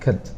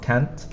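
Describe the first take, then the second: First: The vowel is a weak, reduced 'uh' sound. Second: The vowel is a full, open 'a' sound. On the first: The speaker calls it right. "the pronunciation is more of an uh, uh sound" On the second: The speaker calls it wrong. "not cant"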